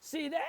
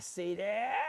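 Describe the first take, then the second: First: It is said in a high falsetto voice. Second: It is said in a normal speaking voice.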